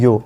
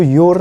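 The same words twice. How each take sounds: First: "यो" with no r at the end; silent r. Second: "योर" with the final r pronounced; r sounded. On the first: Teacher correcting "your", said r-less as "यो". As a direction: say "यो" ending on the open vowel. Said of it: "इसको बोलते हैं यो". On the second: Teacher showing what not to say, "योर" with its r. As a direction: say "योर" ending on an audible r. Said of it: "इसको योर नहीं बोलते". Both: Shown as a demonstration.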